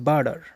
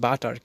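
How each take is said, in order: First: It has a soft 'd' and ends with 'r'. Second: It has a hard 't' and ends in 'ar'. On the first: The speaker calls it right. "বার্ডার উচ্চারণ করা যায়" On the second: The speaker calls it wrong. "আমরা উচ্চারণ করি বাটার"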